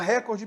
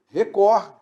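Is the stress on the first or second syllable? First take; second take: first; second. First: The stress is on the first syllable. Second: The stress is on the second syllable. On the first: The speaker calls it wrong. "O pessoal da Globo fala recorde para cá" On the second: The speaker calls it right. "Mas na realidade o certo é o quê?"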